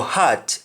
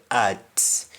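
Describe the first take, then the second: First: "heart" with a clear breathed H; H sounded. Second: "heart" said as "art"; H dropped. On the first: Teacher contrasting two spellings of heart, H sounded. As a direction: pronounce the H at the start of "heart". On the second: Teacher contrasting two spellings of heart, H dropped. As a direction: start "heart" straight on the A, no H. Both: Shown as a demonstration. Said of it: "juggle between the spellings".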